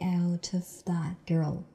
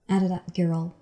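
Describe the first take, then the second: First: Each word is said separately and carefully. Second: The words are linked and reduced together. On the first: The speaker calls it wrong. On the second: The speaker calls it right.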